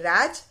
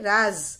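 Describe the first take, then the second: First: The word ends in a j sound. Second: The word ends in a z sound. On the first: It means rule. "ये नुक्ता नहीं लगा हुआ है" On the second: It means secret. "ये जो नुक्ता लगा हुआ है वो राज"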